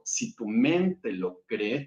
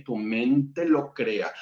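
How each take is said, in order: First: Slow, weighing each word, landing on "cree"; slow deliberate stress. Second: Slow, weighing each word, landing on "crea"; slow deliberate stress. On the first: Spiritual teacher to a live audience, slow and deliberate on "cree". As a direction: set up the first half of the maxim slowly, leaning on "cree". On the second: Spiritual teacher to a live audience, slow and deliberate on "crea". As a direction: close the maxim slowly, leaning on "crea". Slow answering half of maxim. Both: Shown as a demonstration.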